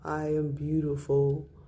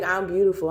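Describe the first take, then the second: First: It sounds unconvinced and half-hearted. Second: It sounds confident and said with a smile.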